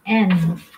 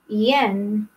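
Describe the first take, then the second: First: The word begins directly with the vowel. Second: The word begins with a y sound. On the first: The speaker calls it right. "it's not yen. It should be N" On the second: The speaker calls it wrong. "We foreigners, when we say yen, like that"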